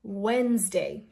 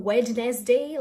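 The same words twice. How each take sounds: First: Wednesday as "wenz-day"; silent D. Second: Wednesday as "wed-nes-day", D sounded; Wednesday spelt out as "WED-nez-day"; wrong pronunciation. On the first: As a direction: say Wednesday slowly in two syllables, no D. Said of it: "Forget about the D". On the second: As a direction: say all three syllables of Wednesday. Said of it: "this is not Wednesday". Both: Shown as a demonstration.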